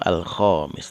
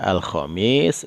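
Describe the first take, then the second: First: The vowel after kh is drawn out long. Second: The vowel after kh is kept short. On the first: It means the fifth. The speaker calls it right. "yang panjang kho-nya ya" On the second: It means Thursday. The speaker calls it wrong. "artinya adalah hari hari Kamis"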